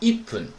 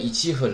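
First: Said as ippun, with a doubled p sound. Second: Said as ichi fun, with no doubled consonant. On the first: The speaker calls it right. "你要读成1 分" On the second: The speaker calls it wrong. "你就不能说17 分了"

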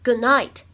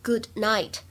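First: The d of good is held, not released. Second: The d of good is fully released. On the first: The speaker calls it right. "不完全失去爆破的现象…而应该读成good night" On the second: The speaker calls it wrong. "并不能够读成good night"

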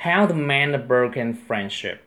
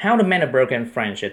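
First: It is read at a normal speaking pace. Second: It is read faster, in one breath.

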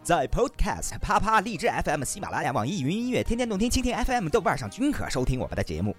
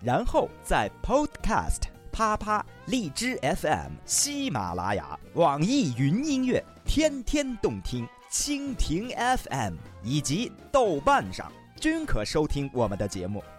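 First: The list is read quickly. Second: The list is read slowly.

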